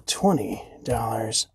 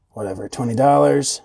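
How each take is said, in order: First: Whispered aside to himself; whispering. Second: Said in the usual way. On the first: Real, not acted. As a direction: breathe the price under his breath. Muttered price, then said normally.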